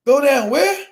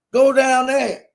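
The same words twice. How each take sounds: First: WHERE rising in disbelief; baffled question. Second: Country local giving directions, THERE falling; matter-of-fact directions. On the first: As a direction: swing "where" upward, totally lost. Baffled by the local's directions. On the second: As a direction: state "there" with a falling, settled tune. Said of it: "can't understand what the motherfucker even saying". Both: Retold or imitated.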